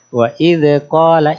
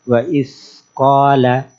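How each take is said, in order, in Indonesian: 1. Ada bunyi vokal tambahan setelah d. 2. Ada hembusan napas setelah d. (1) "ketambahan beranak hurufnya, anaknya the" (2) "Ada juga yang disertai angin"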